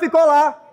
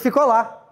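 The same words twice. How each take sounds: First: It is said loudly. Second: It is said at normal volume.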